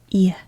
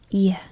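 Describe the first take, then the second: The two takes are said the same way.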